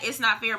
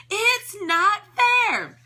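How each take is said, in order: First: Said in the usual way. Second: High, very slow scream. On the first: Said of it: "How many of us have had that". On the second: A narrator's reading. Hem screams his complaint, high and very slow. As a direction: wail it out like a tantrum. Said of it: "he screamed at the top of his".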